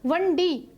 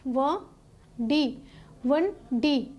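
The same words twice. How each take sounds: First: Said in the usual way. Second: "ਵੰਡੀ" broken into "ਵੰ" and "ਡੀ", pause between; split into syllables. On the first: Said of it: "ਸ਼ਬਦ ਦੇ ਵਿੱਚ ਸਾਨੂੰ ਦੋ syllable". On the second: Shown as a demonstration. Teacher shows students two syllables, "ਵੰਡੀ" said in separate pieces. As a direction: sound out "ਵ… ਡੀ" syllable by syllable. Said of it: "ਤਾਂ ਇੱਥੇ ਸਾਨੂੰ ਦੋ ਦਿਖਾਈ ਦੇ".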